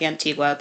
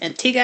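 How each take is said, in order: First: The name is sounded out as it is spelled. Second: The name is not sounded out as spelled. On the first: The speaker calls it wrong. "It looks like Antigua" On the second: The speaker calls it right. "but it's pronounced Antigua"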